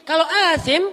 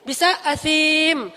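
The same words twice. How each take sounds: First: "asim" with a long a. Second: "asim" with a long drawn-out i, slow. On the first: Teacher contrasts two words, "asim" with a long a. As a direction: stretch the a in "asim". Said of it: "panjang A-nya". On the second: Teacher contrasts two words, "asim" with a long i. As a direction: stretch the i in "asim". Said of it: "kalau iya-nya yang panjang". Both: Shown as a demonstration.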